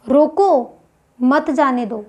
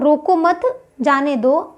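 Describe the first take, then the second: First: The pause comes after the first word. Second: The pause comes after the second word. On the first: Stop the person; do not let them go. "मतलब जो बंदा जा रहा है उसको रोक लो" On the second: Let the person go; do not stop them. "रोको मत के बाद में मैंने विराम चिन्ह का प्रयोग किया।"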